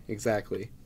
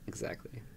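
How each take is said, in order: First: Said in the usual way. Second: Breathy whispered Exactly. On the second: Shown as a demonstration. Repeats word as whisper.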